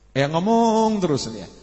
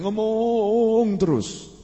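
First: Said in the usual way. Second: Ngomong terus stretched slow; drawn-out emphasis. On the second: Shown as a demonstration. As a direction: lean on ngomong, stretch it long. (ngomong terus diucapkan panjang dan pelan) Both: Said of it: "hati itu kalau ngomong nggak pakai berhenti".

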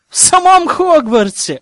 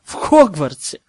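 First: High, loud indignant exclaim; indignant outburst. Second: Said in the usual way. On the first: A narrator's reading. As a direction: throw up your hands, outraged. Outraged narration about dungeons.

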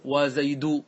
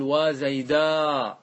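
First: Said in the usual way. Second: "وزيدا" very slow, final aa held long and open; long alif ending. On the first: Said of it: "هذا هو الأصل". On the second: Shown as a demonstration. Teacher showing alif added at the end, long open aa on "وزيدا". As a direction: hold the last aa of "وزيدا". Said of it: "بالألف".

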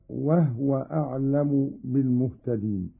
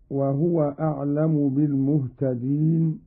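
First: وهو said wahwa, no vowel on the ha; vowelless ha. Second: Said in the usual way. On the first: Shown as a demonstration. Teacher demonstrates Qalun's reading, وهو as wahwa. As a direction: close وهو on the h: "wah-wa". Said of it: "بإسكان الهاء".

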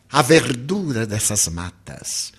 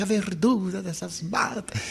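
First: Slow, solemn recital of the anthem line; "a verdura dessas matas" said slowly, each word weighed, falling. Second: Softer, awed reading of "a verdura dessas matas"; "verdura" stressed, marvelling at it; excited recital. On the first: Shown as a demonstration. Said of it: "Então". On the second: Retold or imitated. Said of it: "eu me empolgava".

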